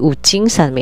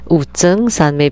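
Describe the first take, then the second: First: The second syllable is pronounced jing. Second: The second syllable is pronounced zheng. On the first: "someone corrected me to be Wu Jing Sanmei" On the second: "because I said Wu Zheng Sanmei before"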